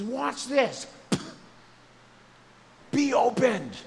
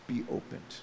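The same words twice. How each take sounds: First: Loud, high, slowed "Be opened" as a healing command; commanding proclamation. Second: "Be opened" in a soft whisper. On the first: Jesus commands the deaf man, loud proclamation. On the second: Jesus speaks to hearts this morning, soft whisper. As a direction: breathe "Be opened" gently, like a touch on the heart. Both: Retold or imitated.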